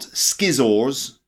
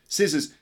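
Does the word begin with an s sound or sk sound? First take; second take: sk; s. First: The word begins with an sk sound. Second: The word begins with a plain s sound. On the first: The speaker calls it wrong. "not skizzors" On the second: The speaker calls it right. "scissors, not skizzors"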